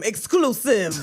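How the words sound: It is said in a radio announcer voice.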